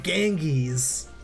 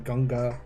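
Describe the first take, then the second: First: The name is said the American way, 'Ganges'. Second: The name is said the Hindi way, 'Ganga'.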